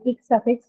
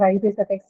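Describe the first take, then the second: First: IC pronounced as one syllable, "ik"; "ic" read as a word, not letter by letter. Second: "I C" said as two letter names, eye-see; "I C" as separate letters, eye then see; spelled out. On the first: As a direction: say "ic" as a single sound, ik. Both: Shown as a demonstration. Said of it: "the ic suffix or I C suffix".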